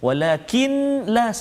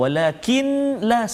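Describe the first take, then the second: First: The n is sounded separately before the l. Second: The same.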